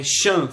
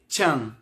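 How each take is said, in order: First: "chan" as shan; "chan" with no t at the front; sh sound. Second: "chan" as tchan; "chan" starting like tchau; tch sound. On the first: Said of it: "Não se lê, por exemplo". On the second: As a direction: open "chan" with a t stop. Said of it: "se lê chan". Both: Shown as a demonstration.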